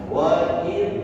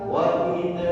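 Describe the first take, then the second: The two takes are said the same way.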